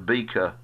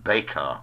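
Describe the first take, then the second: First: The vowel sounds like the one in 'beak'. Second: The vowel sounds like the one in 'bake'. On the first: The speaker calls it wrong. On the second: The speaker calls it right.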